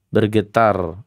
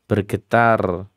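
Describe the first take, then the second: The two takes are said the same way.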